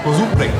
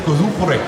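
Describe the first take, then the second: First: The word is said with a Japanese pronunciation. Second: The word is said with a Japanese pronunciation.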